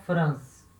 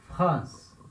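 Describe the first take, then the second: First: The R is not made in the throat. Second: The R is made in the throat. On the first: The speaker calls it wrong. "Tá errado" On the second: The speaker calls it right. "Esse R, ele vem da garganta"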